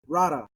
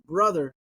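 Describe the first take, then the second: First: It is said in Hawaiian local pidgin style. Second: It is said with standard English pronunciation. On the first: "they say rara" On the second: "instead of saying brother"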